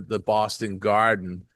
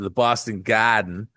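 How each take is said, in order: First: It is said in a neutral American accent. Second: It is said in a Boston accent.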